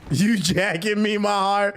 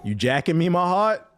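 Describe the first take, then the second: First: Higher, slow, drawn-out mock come-on; hammed-up New York line. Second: Light mock question, rising at the end; quoting New York slang. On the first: The streamer re-enacting the slang line to chat, hammed-up and higher. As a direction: stretch it out like a mock sweet-talker. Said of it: "I be like, "Yo, pause". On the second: The streamer quoting the slang to chat, lightly mocking. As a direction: toss it off as a half-voiced quote. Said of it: "quoting New York slang".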